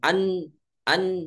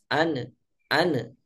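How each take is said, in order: First: The n is pressed tightly with no bounce. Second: The n is released loosely with a bouncing echo. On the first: "ditekan mengucapkan huruf nun" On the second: "dilepas an an jadi mantul"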